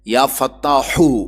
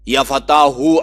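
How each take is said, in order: First: The final h is a harsh, throaty h. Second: The final h is a plain, soft h. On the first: The speaker calls it right. "उस है के साथ जिससे आप हलवा लिखते हैं" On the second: The speaker calls it wrong. "अगर आखिर में दो चश्मे है के साथ पढ़ेंगे फिर यह नुस्खा सही नहीं होगा"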